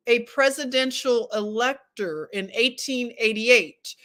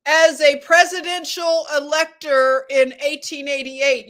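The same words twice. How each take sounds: First: Said in the usual way. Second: A bit higher and louder, declaiming; voice goes up. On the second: Shown as a demonstration. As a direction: lift the voice and read it out loud. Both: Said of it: "how high my voice goes up".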